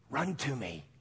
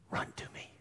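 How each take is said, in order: First: Said in the usual way. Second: Unvoiced, much softer whisper of God; whispered call. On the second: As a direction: breathe the invitation. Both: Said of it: "you know what God says?".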